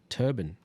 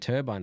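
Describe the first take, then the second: First: It is said in an American accent. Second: It is said in a British accent.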